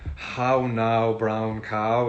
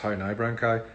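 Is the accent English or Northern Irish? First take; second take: English; Northern Irish. First: It is said in an English accent. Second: It is said in a Northern Irish accent.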